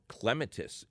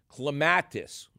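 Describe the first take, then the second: First: It is pronounced the British way. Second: It is pronounced the non-British way.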